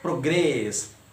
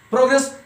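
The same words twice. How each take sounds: First: The stress is on the second syllable. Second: The stress is on the first syllable. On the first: It is used as a verb. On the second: It is used as a noun or adjective.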